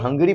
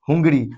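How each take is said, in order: First: The first vowel is an 'uh' sound. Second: The first vowel is an 'oo' sound. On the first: The speaker calls it right. "इसको हंगरी पढ़ते हैं" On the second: The speaker calls it wrong. "हम लोग इसको पढ़ते थे हुंगड़ी। हुंगरी, क्या पढ़ते थे, हुंगरी।"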